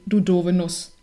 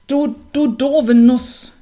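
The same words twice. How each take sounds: First: Said in the usual way. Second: Louder, slow angry cow; cow calling out. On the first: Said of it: "was auch so viel bedeutete wie". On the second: A narrator's reading. Angry cow scolding the clumsy hazelnut, slow and loud. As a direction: drag out the insult at the nut. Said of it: "rief die Kuh".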